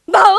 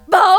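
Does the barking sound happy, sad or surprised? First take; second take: happy; sad. First: The bark sounds happy and excited. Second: The bark sounds sad and mournful.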